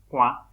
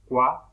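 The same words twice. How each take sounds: First: Cua with the a pushed through the nose; nasal cua. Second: Cua with a plain oral a. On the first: Teacher showing the nasal word for finger to students. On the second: Teacher showing the oral word for hole to students. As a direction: say Cua with no nasal colour. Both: Shown as a demonstration. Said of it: "uno de los dos tiene tilde nasal".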